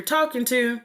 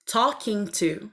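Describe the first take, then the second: First: Said in the usual way. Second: TALKING TO slowly, with each word distinct; careful enunciation. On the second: Real, not acted. Correcting her own speech, careful slow "talking to".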